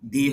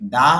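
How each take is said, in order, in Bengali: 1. শব্দটি 'ee' স্বরধ্বনি দিয়ে শেষ হয়। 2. শব্দটি 'uh' স্বরধ্বনি দিয়ে শেষ হয়। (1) "দি হবে।" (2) "টি এইচ এর উচ্চারণ দুই রকম হবে। দা হবে"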